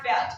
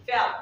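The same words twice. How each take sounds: First: FELT with a clear released T; final T sounded. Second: FELT said like "fell"; final T dropped. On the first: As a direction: say FELT, hit the last T. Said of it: "It's not felt". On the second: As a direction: say FELT without its last T. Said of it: "You're not pronouncing the word T". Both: Shown as a demonstration.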